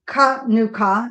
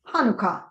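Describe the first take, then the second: First: It begins with a rough throaty sound. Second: It begins with a soft plain h sound. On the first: The speaker calls it right. "actually pronounced with a guttural sound" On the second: The speaker calls it wrong. "not Hanukkah"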